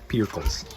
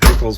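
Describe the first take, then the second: First: It is said with an r sound. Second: It is said without an r sound.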